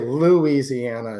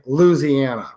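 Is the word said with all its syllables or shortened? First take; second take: full; shortened. First: All syllables of the word are pronounced. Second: A couple of syllables are dropped. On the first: This is how it is said in Michigan. "we would say Louisiana in Michigan" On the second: This is how locals from Louisiana say it. "he would just say Louisiana, right? They take a couple syllables out"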